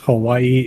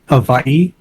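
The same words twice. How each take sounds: First: The middle consonant is a w sound. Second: The middle consonant is a v sound. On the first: The speaker calls it wrong. "a lot of people think it's Hawaii" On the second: The speaker calls it right. "every W in the Hawaiian language is actually a V, so it's actually Hawaii"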